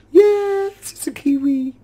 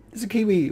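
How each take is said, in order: First: High, thrilled squeal of delight; excited squeal. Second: Said in the usual way. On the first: Real, not acted. Gamer spotting a kiwi in his zoo mod, high delighted squeal. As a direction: squeal it like you've found treasure.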